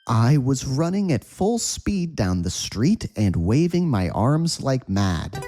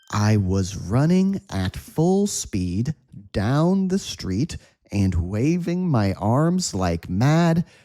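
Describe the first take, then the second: First: The sentence is spoken at a fast pace. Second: The sentence is spoken at a slow pace. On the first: "Let's say this at a quick speed" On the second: "slow speed"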